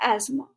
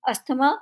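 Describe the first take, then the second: First: No 't' or 'th' sound is heard mid-word. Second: A 't' or 'th' sound is heard mid-word. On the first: The speaker calls it right. "सही pronunciation है एस्मा" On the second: The speaker calls it wrong. "अस्थमा गलत pronunciation है"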